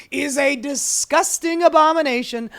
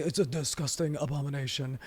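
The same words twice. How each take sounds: First: Put-on loud, higher outburst sliding toward Trump accent; hammed-up outraged denunciation; Elon Musk. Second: Low, soft, quick impression; badly faked billionaire, quietly muttered; Elon Musk. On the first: Host overdoing billionaire's outburst, indignant and Trump-like. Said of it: "trying not to give him a Donald Trump accent". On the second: Host retrying his billionaire impression, low and subdued. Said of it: "My Elon is not very good".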